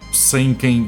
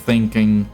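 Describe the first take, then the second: First: The th sound is replaced by another sound. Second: The word starts with a true th sound. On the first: The speaker calls it wrong. "some people say thinking instead of" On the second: The speaker calls it right. "instead of thinking"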